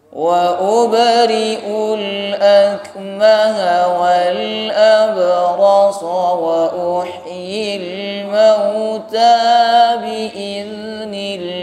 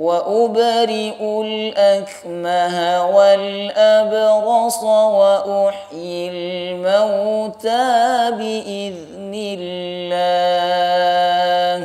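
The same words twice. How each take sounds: No difference in how they are said.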